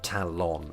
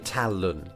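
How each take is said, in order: First: The second syllable has a full 'lon' vowel. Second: The second syllable has a reduced schwa vowel. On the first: "not Talon" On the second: "I say Talon ... Schwaz"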